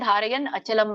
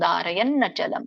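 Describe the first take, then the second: First: The words are separated with a single n sound. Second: The words are joined with a doubled n sound. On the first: "ಇದನ್ನ ನೀವು ಬಿಡಿಸೋದಾದ್ರೆ ಧಾರಯನ್ ಅಚಲಂ ಅಂತ ಹೇಳ್ಬೋದು" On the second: "ನಕ್ಕೆ ನ ಒತ್ತು ಬಂದಾಗ ಹೇಳ್ಬೇಕು"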